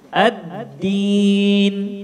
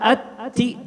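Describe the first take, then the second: First: The d is held back with no breath escaping. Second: The d is released with a puff of breath. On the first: The speaker calls it right. "udara tertahan, suara tertahan juga" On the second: The speaker calls it wrong. "kalau ada nafas, ini masih kurang"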